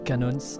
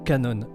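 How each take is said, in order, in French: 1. Le nom se termine par un son S audible. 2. Le nom se termine sans son S.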